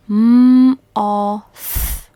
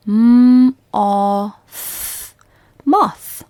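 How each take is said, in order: First: Slow and louder, m-o-th spaced out; slow sounding out. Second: Loud sounding out. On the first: Teacher sounding out moth for pupils. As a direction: spell out m-o-th slowly and clearly. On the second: Teacher repeating moth louder for pupils. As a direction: call out M-o-th then Moth firmly. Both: Shown as a demonstration. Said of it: "One more time".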